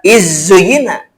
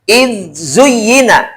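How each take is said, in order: First: The n sound merges into the next consonant. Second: The n sound is pronounced clearly and separately. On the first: The speaker calls it wrong. "Tidak dibaca izzuyina ... tidak idghamkan" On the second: The speaker calls it right. "harus dibaca idhar"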